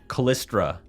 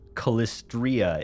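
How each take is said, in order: First: The name is said with three syllables. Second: The name is said with four syllables. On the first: The speaker calls it wrong. "I've been saying words wrong" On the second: The speaker calls it right. "is the correct correct pronunciation. There's an I in there"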